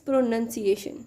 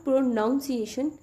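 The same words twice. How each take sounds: First: "pronunciation" with second syllable as "nun"; correct pronunciation. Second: "pronunciation" with second syllable as "noun"; mistaken pronunciation. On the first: Teacher correcting the common mistake, careful pronunciation. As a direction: say "pronunciation" as pro-nun-ciation, slowly. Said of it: "it's pronunciation". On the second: Teacher showing learners the common mistake, mispronounced. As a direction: say "pronunciation" like pro-NOUN-ciation. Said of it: "It's not pronunciation". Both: Shown as a demonstration.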